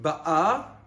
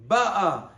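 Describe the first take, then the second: First: The stress is on the last syllable. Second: The stress is on the first syllable. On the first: She is coming now. "the tam is on the aleph, on the last part of the word milera" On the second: She had already come. "over here the tam is on the bet, it's mila'el"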